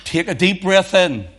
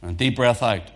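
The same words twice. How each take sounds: First: Higher, louder, drawing out breath in; breath in, drawn out. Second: Said in the usual way. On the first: Retold or imitated. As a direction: lift and stretch the instruction to inhale. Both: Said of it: "and then he would say".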